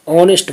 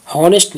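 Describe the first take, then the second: First: "ऑनेस्ट" with no H, opening on the vowel; silent H. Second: "हॉनेस्ट" with the initial H pronounced; H wrongly sounded. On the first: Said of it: "बोलते हैं". ("ऑनेस्ट" को बिना ह के बोलें) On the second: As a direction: start "हॉनेस्ट" on an audible H. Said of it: "नहीं बोलते हैं". ("हॉनेस्ट" को ह के साथ बोलें) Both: Shown as a demonstration.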